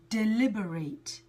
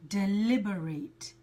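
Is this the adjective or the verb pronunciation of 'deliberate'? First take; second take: verb; verb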